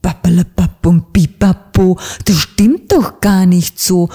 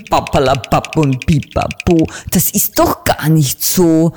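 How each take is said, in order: First: Put-on louder, booming old raven rebuke; thundering. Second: Put-on mildly booming, scolding old raven; a hint of thundering rebuke; mock thunder. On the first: Raven councillor thunders at the stammering little bird. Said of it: "donnerte die mächtige Stimme". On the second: Raven councillor rebukes the little bird, mildly booming. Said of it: "donnerte da die laute, knarrende Stimme".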